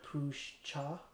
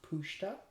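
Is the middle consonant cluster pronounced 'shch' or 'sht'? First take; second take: shch; sht. First: The middle consonants sound like 'shch'. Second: The middle consonants sound like 'sht'. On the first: "even though it says here Pushcha" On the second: "it's pronounced Pushta"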